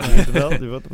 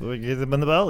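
First: Louder jeering taunt at the loser; mock jeer. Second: Said in the usual way. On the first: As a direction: jab the words at him, louder. Mocking fans' reaction.

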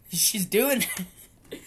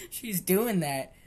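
First: Louder, higher and laughing through it; cracking up while pointing it out. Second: "She's doing that" slowed, each word leaned on; slow, pointed repeat with "doing" stressed; slow emphatic repeat. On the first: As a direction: giggle breaks into the words. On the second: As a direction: spell it out slowly for the listener. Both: Real, not acted.

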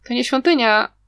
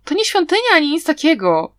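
First: Said in the usual way. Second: Whiny grumble, pitched higher; complaining. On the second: Acted. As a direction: grumble it like a sulky pupil, stretching "świątynia". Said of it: "narzekał uczeń".

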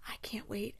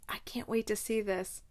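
First: Whisper. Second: Said in the usual way. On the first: Real, not acted. Excited whisper after plain talk.

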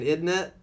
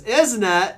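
First: Higher, lightly British "isn't it"; British "isn't it" without the shout; everyday British tag. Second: Loud, high British "isn't it"; punchy mock-British question, spoiling for a fight; British fighting challenge. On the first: Acted. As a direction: toss it off as a casual British tag. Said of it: "instead of saying". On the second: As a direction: challenge them like a British brawler. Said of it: "If a guy questions you and goes".

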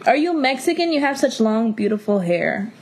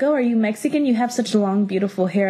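First: Mocking imitation. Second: Lightly voiced coworker, politely curious; a stranger at work asks, mildly imitated; retold compliment. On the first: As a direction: parody the question with exaggerated curiosity. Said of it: "what the fuck, bitch?". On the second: Coworker asks about her hair, lightly imitated friendly question. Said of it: "they're like".

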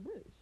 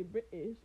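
First: Said in the usual way. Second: "British" said the British way, T dropped from the middle; British pronunciation. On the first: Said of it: "instead of British". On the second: Shown as a demonstration. Teasing the British about their speech, "British" with its middle T dropped. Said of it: "why do y'all say British instead of British".

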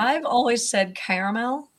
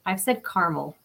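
First: "caramel" said as CARE-uh-mel, three syllables; "caramel" with the middle "a" sounded out. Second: "caramel" said as CAR-mel, two syllables; "caramel" with the middle vowel dropped, CAR-mul. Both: Shown as a demonstration. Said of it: "how is everyone saying that".

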